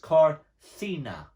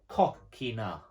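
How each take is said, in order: First: The second consonant is a soft s sound. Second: The second consonant is a hard k sound. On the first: The speaker calls it right. "If you listen to it, it's corcina" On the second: The speaker calls it wrong. "you would expect that word to read coquina, but it isn't"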